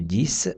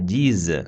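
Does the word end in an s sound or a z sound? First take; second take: s sound; z sound. First: The word ends with a voiceless s sound. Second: The word ends with a voiced z sound. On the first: The speaker calls it wrong. "не «діс»" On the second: The speaker calls it right. "а «діз»"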